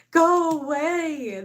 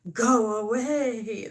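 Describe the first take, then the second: First: Higher, louder, very slow "Go away"; hammed-up yell. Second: Slow, drawn-out "Go away"; mock grumpy dismissal. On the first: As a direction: shout them off, stretching each word. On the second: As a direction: grumble it away, dragging the words. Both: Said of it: "That's how I feel".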